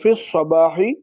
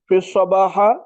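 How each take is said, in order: First: The word ends in an i vowel. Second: The word ends in an a vowel. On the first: The speaker calls it right. "सही होगा" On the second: The speaker calls it wrong. "ये गलत है"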